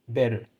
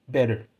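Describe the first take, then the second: Both takes have the same delivery.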